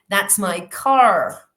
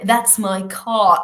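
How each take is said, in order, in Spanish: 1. La R final en car es curvada hacia atrás. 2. La R final en car es muda. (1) "en inglés de cualquier otra variedad diríamos that's my car, con la R retrofleja y la lengua se curva hacia atrás" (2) "el inglés de Inglaterra diríamos that's my car, ¿vale? No pronuncio la R"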